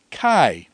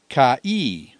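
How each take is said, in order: First: Kai as one syllable, rhyming with "eye"; one-sound diphthong. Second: Kai wrongly split into "ka-ee"; two syllables. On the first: Teacher giving students the correct reading, kai as one diphthong. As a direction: say "kai" with both vowels making one sound. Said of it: "two vowels making one sound". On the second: Teacher testing students with the wrong reading, kai split as ka-ee. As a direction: say "kai" slowly as two vowels, ka, ee. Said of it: "is a sneaky little diphthong". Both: Shown as a demonstration.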